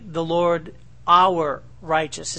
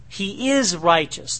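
First: OUR drawn out slowly and set apart; slow down and lean on the word our; stress on OUR. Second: IS stressed in "he is righteous". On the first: Teacher shows how Jeremiah changed the name, emphatic. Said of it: "It's not is righteous". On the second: Teacher explains what the king's name means, emphatic. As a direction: lean on the word is. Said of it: "The emphasis on the word is". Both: Shown as a demonstration.

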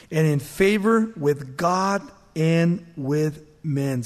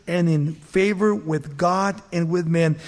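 First: Each word of "and in favor with God and with men" drawn out slowly; slow emphasis. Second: Said in the usual way. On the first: Shown as a demonstration. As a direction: lean on "favor" and take it slow. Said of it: "slow emphatic reading". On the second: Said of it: "restated plainly".

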